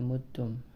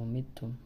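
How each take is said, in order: First: The first vowel is an 'u' sound. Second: The first vowel is an 'i' sound. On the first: "bi dhammil mim" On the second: "wa kasriha"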